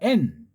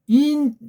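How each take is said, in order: First: It is a crisp, clear 'en' sound. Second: It sounds close to 'in'. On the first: The speaker calls it right. "N 발음이 N이에요" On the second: The speaker calls it wrong. "인에 가까운 소리"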